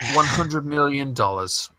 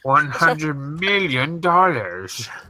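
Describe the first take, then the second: First: It is said in the speaker's ordinary voice. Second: It is said in a put-on movie villain voice.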